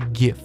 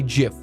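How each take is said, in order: First: The word begins with a hard G sound. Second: The word begins with a soft J sound. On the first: It names an animated image format. The speaker calls it right. "You posted a GIF. That's what you posted" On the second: It names a brand of peanut butter. The speaker calls it wrong. "GIF is a peanut butter. ... don't say GIF"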